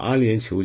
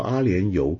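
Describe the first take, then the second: First: The last syllable is pronounced qiu. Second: The last syllable is pronounced you. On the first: The speaker calls it right. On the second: The speaker calls it wrong.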